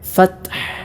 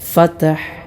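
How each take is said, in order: First: The t sound ends without any bounce. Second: The t sound ends with an echoing bounce. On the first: The speaker calls it right. "ഇങ്ങനെയാണ് ഓതേണ്ടത്" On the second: The speaker calls it wrong. "തായിലും പലരും അൽക്കല എന്ന് പറയുന്ന സിഫത്ത് കൊടുത്തുകൊണ്ട്"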